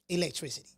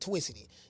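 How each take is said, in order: First: The word is said in full, normally. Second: The word is shortened, starting with a T sound. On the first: "that's short for electricity" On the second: "people who are tongue-tied, they always pronounce everything with a T"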